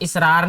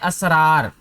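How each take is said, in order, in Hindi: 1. शब्द 'i' स्वर से शुरू होता है। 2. शब्द 'a' स्वर से शुरू होता है। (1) "इसको इसरार नहीं पढ़ना" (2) "पहला लफ्ज़ है असरार"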